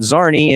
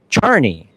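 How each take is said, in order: First: The name begins with a Z sound. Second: The name begins with a CH sound. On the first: The speaker calls it wrong. "It's not Zarni" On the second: The speaker calls it right. "it's Charny"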